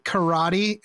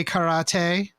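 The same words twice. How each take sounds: First: Karate said as kuh-RAH-dee; anglicized pronunciation. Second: Karate said as kah-rah-TAY; Japanese-style pronunciation. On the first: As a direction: karate with an American tapped t and ee ending. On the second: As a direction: karate ending in a crisp t and "ay". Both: Shown as a demonstration. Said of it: "some people say karate".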